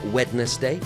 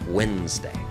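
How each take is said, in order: First: The D sound is pronounced after the W. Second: The D sound is left out entirely. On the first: The speaker calls it wrong. "it's not Wednesday" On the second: The speaker calls it right. "the D is silent"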